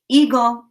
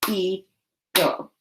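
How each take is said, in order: First: Said in the usual way. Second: "Eagle" broken in two with a long pause; split into chunks. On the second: Shown as a demonstration. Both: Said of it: "Now say the chunks in eagle".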